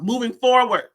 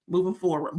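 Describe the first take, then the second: First: "Moving forward" louder and firmly punched; emphatic repeat. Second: Said in the usual way. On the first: Retold or imitated. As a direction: drive home "Moving forward" with extra force.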